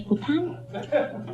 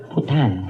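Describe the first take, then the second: First: Putana drawn out very slowly, much higher and softer; mock French. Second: Said in the usual way. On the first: Shown as a demonstration. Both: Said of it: "Is that how you say in French".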